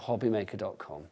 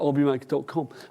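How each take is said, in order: First: The phrase is said crisply, with careful articulation. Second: The phrase is said casually, with loose articulation. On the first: "It's the diction, which is wonderful" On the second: "Josh is in, he's like"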